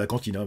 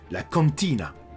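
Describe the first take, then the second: First: It is said in a plain, normal accent. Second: It is said with a put-on foreign accent. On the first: "j'aurais pu juste dire" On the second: "je prends un accent"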